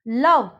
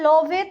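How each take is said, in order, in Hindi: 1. शब्द v की ध्वनि पर खत्म होता है। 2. v के बाद एक अतिरिक्त स्वर बोला जाता है। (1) "यहाँ पे हो गया ई साइलेंट" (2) "लोवे तो नहीं बोलेंगे"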